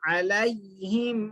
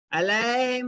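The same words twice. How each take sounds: First: अलैहिम with a clear a-i glide; maroof vowel, correct. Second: अलैहिम with a flat, drawn e; majhool vowel, faulty. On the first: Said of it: "मारूफ आवाज से पढ़ना". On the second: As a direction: show the mistake, अलैहिम as "alay-him". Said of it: "अलैहिम नहीं पढ़ना". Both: Shown as a demonstration.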